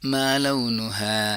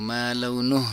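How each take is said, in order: First: The word ends with a final a vowel. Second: The word ends on a bare h consonant. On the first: The speaker calls it right. "दोनों कंडीशंस में आपको हा ही पढ़ना है" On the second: The speaker calls it wrong. "आपको मालूनुह नहीं पढ़ना है"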